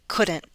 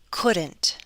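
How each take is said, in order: First: The T is a glottal stop. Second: The T is fully released. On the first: "With a glottal stop" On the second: "with a true T"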